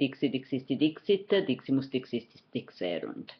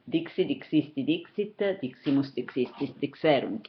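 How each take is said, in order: First: The forms are said very rapidly. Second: The forms are said at a faster pace. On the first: "Very quickly" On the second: "more quickly"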